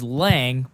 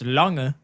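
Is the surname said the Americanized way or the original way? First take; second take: Americanized; original. First: The name is said the local American way. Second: The name is said the original German way. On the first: This is how the family says it locally. "how we say it over here is Lang" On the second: This is the technically correct pronunciation. "Technically, it's pronounced Lange"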